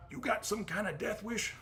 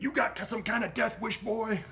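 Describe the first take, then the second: First: Put-on southern accent, pitched much higher; mocking southern-accent cop voice. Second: Put-on southern accent, voice pitched well up; southern cop accent. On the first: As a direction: repeat the cop's line in a southern accent. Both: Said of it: "I talk like he's got a southern accent".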